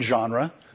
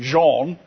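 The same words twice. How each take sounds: First: The word has a plain English pronunciation. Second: The word has a French pronunciation.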